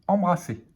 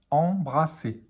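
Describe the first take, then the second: First: Said in the usual way. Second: Em-bra-sser, split into syllables. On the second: Shown as a demonstration. Teacher sounding out a word for beginning readers, syllable by syllable. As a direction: say "embrasser" in separate syllables.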